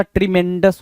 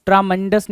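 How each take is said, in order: First: ट्रीमेंडस with "tri" at the start; correct pronunciation. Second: ट्रामेंडस with "traa" at the start; wrong pronunciation. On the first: Shown as a demonstration. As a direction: say ट्रीमेंडस as tri-MEN-dus. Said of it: "ट्रीमेंडस होता है". (सही उच्चारण, शुरू में "ट्री") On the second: Retold or imitated. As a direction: say ट्रामेंडस as traa-MEN-dus. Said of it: "ट्रामेंडस नहीं होता". (गलत उच्चारण, शुरू में "ट्रा")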